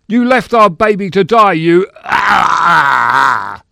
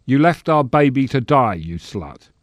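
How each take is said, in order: First: Very high, loud accusation breaking into a scream; full stage rage. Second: Said in the usual way. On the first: Acted. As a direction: bellow the melodrama line until pain cuts it off. Actor performs line, then is hurt.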